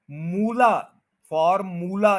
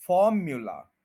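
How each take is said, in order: First: फॉर्मूला with a flat "moo", no y; wrong moo sound. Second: फॉर्म्यूला as "FOR-myoo-la", stress on फॉर; correct pronunciation. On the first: Teacher showing the wrong फॉर्मूला with a plain "moo". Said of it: "ये गलत है". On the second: Teacher giving the correct फॉर्म्यूला after the wrong one. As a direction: glide the "y" in फॉर्म्यूला. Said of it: "first के ऊपर stress है". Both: Shown as a demonstration.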